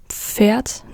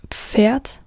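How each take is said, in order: Both takes have the same delivery.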